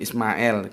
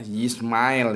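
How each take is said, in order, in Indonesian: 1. Namanya diawali dengan bunyi 'is' yang biasa. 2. Namanya diawali dengan bunyi 'yis'.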